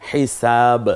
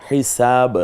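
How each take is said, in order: The two takes are said the same way.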